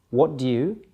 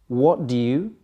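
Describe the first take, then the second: Both takes have the same delivery.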